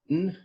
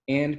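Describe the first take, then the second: First: The word is reduced to a bare n sound. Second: The word is said in full, with its vowel.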